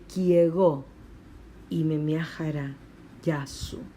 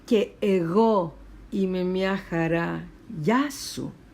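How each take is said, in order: First: The first two words merge into one syllable. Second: The first two words are said as separate syllables. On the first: "dice kiego" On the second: "en lugar de decir que ego"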